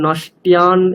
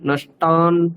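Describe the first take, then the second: First: A y-glide comes before the final vowel. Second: The final vowel follows without any y-glide. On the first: The speaker calls it wrong. "এরকম জফলা উচ্চারণ হচ্ছে আপনার, সেটা করা চলবে না" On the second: The speaker calls it right. "শুদ্ধ আকার"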